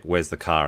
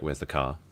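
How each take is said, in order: First: Softer New Zealand pronunciation of "car"; light New Zealand lilt; New Zealand accent. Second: Lower, softer Australian delivery of "car"; understated Australian demo; Australian accent. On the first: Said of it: "like, New Zealand's like". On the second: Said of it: "And Australian's like". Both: Shown as a demonstration.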